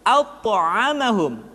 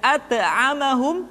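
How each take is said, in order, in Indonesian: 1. Konsonan itu dibaca tebal dan berat. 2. Konsonan itu dibaca ringan dan tipis. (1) "tapi at'amahum" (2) "tidak at'amahum"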